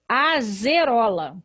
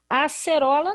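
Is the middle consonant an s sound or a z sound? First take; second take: z; s. First: The middle consonant is a buzzing z sound. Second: The middle consonant is a hissing s sound. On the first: This is how the word would read if spelled with S. The speaker calls it wrong. "Aqui eu teria que ler, sabe o quê? Azerola" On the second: This is the word the writer intends. The speaker calls it right. "Eu não poderia ler acerola"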